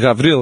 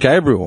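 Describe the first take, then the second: First: The name has a v sound and two syllables. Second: The name has a b sound and three syllables. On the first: "It's the Greek pronunciation of Gabriel" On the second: "it wasn't even Gabriel"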